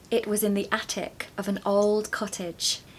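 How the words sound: It is spoken in a British accent. "this creates the music of the British accent"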